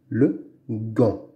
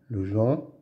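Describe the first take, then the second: First: The noun begins with a hard 'g' sound. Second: The noun begins with a soft 'zh' sound. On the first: The speaker calls it right. "Devant la lettre A, on dit gant" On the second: The speaker calls it wrong. "on dit pas le Jean. Le Jean, non"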